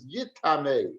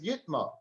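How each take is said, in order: First: The word is said with three syllables. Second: The word is said with two syllables. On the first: It can pass impurity on to something else. "we should pronounce this as yit tamei" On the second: The thing itself becomes impure. "he dashes the words Yitma"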